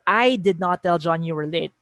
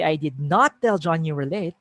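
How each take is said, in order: First: I did not tell John you were late, with I punched first; stress on I. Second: I did not tell John you were late, with not lifted and rising; stress on NOT. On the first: Teacher showing students how stressing I shifts the meaning, stress on I. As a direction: hit the word I, the rest light. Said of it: "If I say". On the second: Teacher contrasting emphasis for the class, stress on not. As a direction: lean hard on not. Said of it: "focusing on that negating word". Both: Shown as a demonstration.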